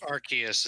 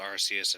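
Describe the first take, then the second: First: The name is said the official English way. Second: The name is said the Japanese way. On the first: The speaker calls it wrong. "the official pronunciation that I refuse to use" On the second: The speaker calls it right. "it's Arceus in Japanese"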